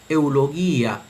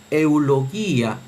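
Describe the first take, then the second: The two takes are said the same way.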